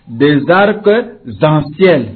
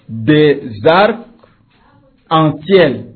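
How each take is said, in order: First: A z sound links arcs to en. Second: No z sound links arcs to en. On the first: The speaker calls it wrong. "Vous ne pouvez pas dire" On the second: The speaker calls it right. "Prenons des arcs en ciel"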